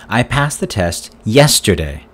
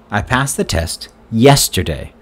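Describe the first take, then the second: The two takes are said the same way.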